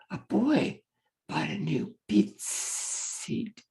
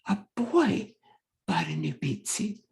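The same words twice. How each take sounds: First: The S sound is drawn out slowly. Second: The S sound is said at normal speed. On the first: The speaker calls it wrong. "the student is going slower on the target sound" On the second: The speaker calls it right. "You said it at a normal speed that time"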